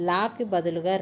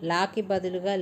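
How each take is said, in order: Both takes have the same delivery.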